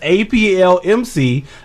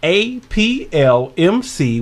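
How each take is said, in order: First: The letters are said at a quicker pace. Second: The letters are said at a slower pace.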